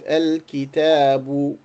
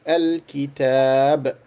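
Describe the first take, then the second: First: The word ends with a short vowel sound. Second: The word ends on a consonant, no vowel. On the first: The speaker continues the sentence after the word. "One dhamma, you will pronounce it al kitabu" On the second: The speaker stops after the word. "And if you stop, you just pronounce it al kitab"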